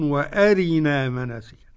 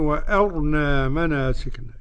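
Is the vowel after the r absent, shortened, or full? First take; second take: full; absent. First: The r carries a full i vowel. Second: The r has no vowel and sounds heavy. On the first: This is the reading of the remaining reciters. "والبقون" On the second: This is one traditional reading with a silenced r. "يبقى السوسي يقول إيه؟"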